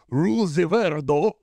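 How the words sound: It is said with a Japanese voice actor's accent.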